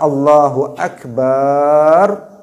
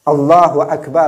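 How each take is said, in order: First: The vowel in the last syllable is drawn out. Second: The vowel in the last syllable is short. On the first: God is a big drum. The speaker calls it wrong. "jika dikatakan seperti itu, maknanya apa? Allah itu katanya gendang yang besar" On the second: God is the greatest. The speaker calls it right. "artinya Allah itu maha besar kekuasaannya"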